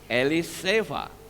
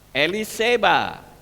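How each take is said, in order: First: The last consonant is a v sound. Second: The last consonant is a b sound.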